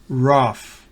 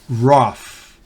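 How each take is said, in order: Both takes have the same delivery.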